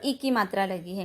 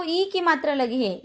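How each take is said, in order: First: ई said as a brief, unstressed i; short i. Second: ई held as a long ee. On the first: Teacher contrasting the other sign, ई kept short. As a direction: drop ई in short and low. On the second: Teacher pointing to the long sign, ई held long. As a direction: lengthen the vowel ई. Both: Shown as a demonstration. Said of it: "दोनों में फर्क है".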